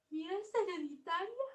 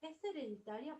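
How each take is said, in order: First: High, rising frightened question; fearful question. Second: Said in the usual way. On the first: Shown as a demonstration. Teacher voicing Mafalda's frightened question. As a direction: ask it scared, voice climbing. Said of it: "Con miedo". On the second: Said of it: "pero no pregunta".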